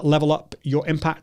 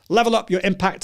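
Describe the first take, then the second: First: It is spoken quietly with very low energy. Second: It is spoken with moderate, somewhat raised energy. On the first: It suits talking to one person in a quiet place. "that's me, really low energy" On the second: It suits talking to a small group. "Number two would be, uh, so I was speaking to a group of five people"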